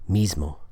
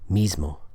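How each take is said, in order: First: The s is a voiced buzz. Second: The s is a voiced buzz.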